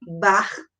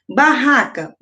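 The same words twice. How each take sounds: First: "barraca" broken as bar... ra... ca; split into syllables. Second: Said in the usual way. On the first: Shown as a demonstration. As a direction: pause between each syllable of "barraca". Teacher demonstrates syllable separation.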